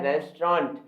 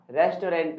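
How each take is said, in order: First: "रेस्टोरेंट" as res-traunt, two syllables; corrected pronunciation. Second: "रेस्टोरेंट" in three parts, res-to-rent; common mispronunciation. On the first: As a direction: squeeze "रेस्टोरेंट" into res-traant. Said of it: "ये होता है". ("रेस्टोरेंट" को 'रेस्ट्रॉन्ट' बोलें) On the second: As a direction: sound a full "to" and "rent" in "रेस्टोरेंट". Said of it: "नहीं होता". ("रेस्टोरेंट" को रेस-टो-रेंट बोलें) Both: Shown as a demonstration.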